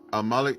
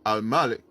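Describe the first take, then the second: First: The A in Malik is not stressed. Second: The A in Malik is stressed. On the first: It means king, a ruler over subjects. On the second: It means master and owner.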